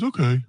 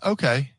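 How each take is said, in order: First: It is said in a dopey, slow-witted voice. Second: It is said in a normal, sharp-sounding voice. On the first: The person seems not very bright. The speaker calls it wrong. "I shouldn't say it like that" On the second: The person seems intelligent. The speaker calls it right. "because he was actually smart"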